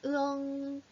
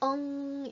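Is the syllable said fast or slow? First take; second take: slow; fast. First: The syllable is drawn out slowly. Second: The syllable is said quickly. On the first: "좀 천천히 하면 으엉" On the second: "좀 빨리 하면 엉"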